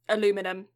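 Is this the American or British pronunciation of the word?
American. It is said with four syllables, ending -num. "I've picked up the North American version"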